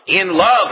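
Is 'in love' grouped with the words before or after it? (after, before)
after. It is grouped with the words after it. God predestinated us in love. "at the beginning of the next verse"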